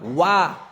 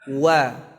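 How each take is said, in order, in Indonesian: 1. Suku katanya ditekan dengan kuat. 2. Suku katanya diucapkan lembut, tanpa tekanan. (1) "dengan menekan kuat kuat-kuat"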